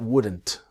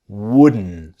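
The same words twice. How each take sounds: First: The final T sound is pronounced. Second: The final T sound is dropped. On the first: The speaker calls it wrong. "Do not say that wouldn't all the time" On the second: The speaker calls it right. "The T disappears. ... So it's that N sound"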